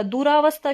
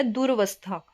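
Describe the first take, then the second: First: दुरावस्था said "duraavastha"; wrong long vowel. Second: दुरवस्था said "duravastha"; correct short vowel. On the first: Teacher showing the incorrect word, long "raa" in दुरावस्था. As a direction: lengthen the middle "raa" in दुरावस्था. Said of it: "वो हमारा अशुद्ध होगा". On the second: Teacher giving the correct word, short "ra" in दुरवस्था. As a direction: keep the middle "ra" short in दुरवस्था. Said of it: "शुद्ध शब्द है". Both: Shown as a demonstration.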